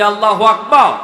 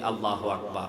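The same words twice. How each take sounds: First: It is called out even more loudly. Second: It is called out loudly.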